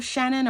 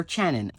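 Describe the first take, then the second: First: "Shannon" starting on a smooth sh sound; soft SH start. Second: "Channon" starting on a ch sound; hard CH start. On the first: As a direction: say "Shannon" with an opening SH as in shoe. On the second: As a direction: say "Channon" with an opening CH as in chair. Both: Shown as a demonstration. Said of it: "Does she call herself Shannon or Channon".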